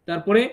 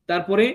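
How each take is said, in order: Both takes have the same delivery.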